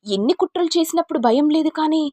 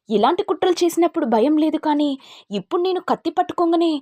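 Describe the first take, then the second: First: Much higher, louder sneering rage; enraged high-pitched taunt; furious taunt. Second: Much higher, louder mocking rage; enraged high-pitched repeated taunt; furious taunt. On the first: Acted. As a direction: taunt her cruelly. Knife-wielding rage at schemer. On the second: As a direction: press the threat home.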